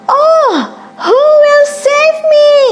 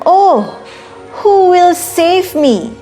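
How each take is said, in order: First: It is said as loud as possible. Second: It is said in a tiny, quiet voice.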